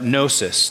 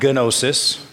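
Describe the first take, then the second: First: The word begins with no G sound. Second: The word begins with an audible G sound. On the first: The speaker calls it right. "but gnosis. The G is silent in the Greek" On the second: The speaker calls it wrong. "not gnosis"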